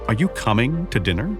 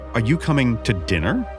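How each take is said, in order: First: The word "coming" is stressed. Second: The word "dinner" is stressed. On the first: The asker wonders if they are doing something else. "Or doing something else?" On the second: The asker means this meal rather than another. "Rather than some other meal"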